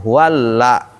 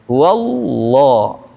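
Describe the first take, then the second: First: The lam is pronounced light and thin. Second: The lam is pronounced heavy and full. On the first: The speaker calls it wrong. "bukan huwalla" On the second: The speaker calls it right. "karena dia sebelumnya dhammah dan fathah"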